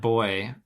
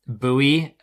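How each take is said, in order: First: Put-on boy in one syllable; rejected pronunciation. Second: Buoy as "BOO-ee", two syllables; American pronunciation. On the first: American ruling out one way to say buoy, plain one-syllable boy. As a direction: say boy like the word for a lad. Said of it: "So not boy". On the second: American answering how to pronounce the word, Buoy as boo-ee. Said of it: "I would pronounce it buoy". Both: Shown as a demonstration.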